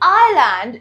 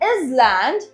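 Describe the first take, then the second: First: No s sound is heard in the middle. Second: An s sound is heard in the middle. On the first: The speaker calls it right. "in which s is always silent" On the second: The speaker calls it wrong. "We don't say island"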